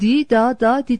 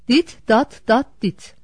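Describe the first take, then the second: First: Only the final syllable ends with a t. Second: Every syllable ends with a t sound. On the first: The signal reads as one single letter. The speaker calls it right. "Oysa doğrusu" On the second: The signal reads as four separate letters. The speaker calls it wrong. "Bu seslendirmede P değil E, T, T, E harflerini söylemiş olduk"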